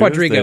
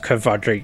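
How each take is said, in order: First: The word begins with a 'kw' sound. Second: The word begins with a 'kv' sound. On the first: The speaker calls it wrong. "I was saying it wrong" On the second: The speaker calls it right. "I'm pretty sure it's pronounced Kvadriga"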